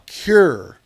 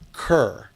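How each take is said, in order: First: The vowel sounds like the one in 'pure'. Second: The vowel sounds like the one in 'her'. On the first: The speaker calls it wrong. "not cure" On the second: The speaker calls it right. "it sounds like cur"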